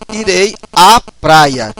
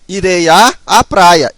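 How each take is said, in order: First: One merged 'a' sound is said before praia. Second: Two separate 'a' sounds are said before praia. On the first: The speaker calls it right. "esses dois vão se fundir apenas em uma" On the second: The speaker calls it wrong. "eu não posso falar assim"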